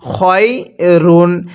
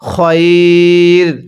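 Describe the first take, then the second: First: The word ends with a final -un sound. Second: The word ends on the r sound. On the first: The reading continues past this word. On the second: The reading stops on this word.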